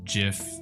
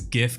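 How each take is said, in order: First: It begins with a J sound. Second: It begins with a hard G sound. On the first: "GIF only sounds like peanut butter" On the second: "GIF can sound like gift"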